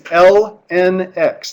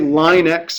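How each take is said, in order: First: Ln is said as separate letters. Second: Ln is said as the word line. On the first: The speaker calls it right. "we actually say those three letters" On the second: The speaker calls it wrong. "Please don't say line x or something weird like that"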